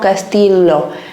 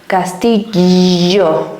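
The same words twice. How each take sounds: First: The double L is said without a buzzing sound. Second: The double L is said with a buzzing sound. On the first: The speaker calls it wrong. "no castillo" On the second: The speaker calls it right. "como un electroshock, like a ray"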